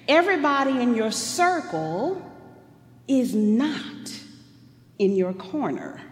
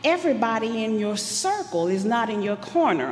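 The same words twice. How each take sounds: First: It is said slowly. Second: It is said fast.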